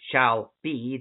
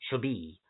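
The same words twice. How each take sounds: First: It is said as two separate words. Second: It is run together as one word. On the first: "instead of" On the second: "that's all one word"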